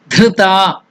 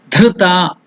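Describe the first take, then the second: Both takes have the same delivery.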